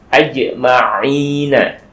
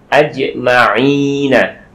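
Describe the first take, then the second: No difference in how they are said.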